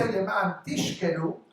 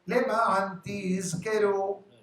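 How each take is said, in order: First: The verb is said with an sh sound. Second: The verb is said with a z sound. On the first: It means to get drunk. The speaker calls it wrong. "it means to get drunk" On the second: It means to remember. The speaker calls it right. "pronounce the Zayin"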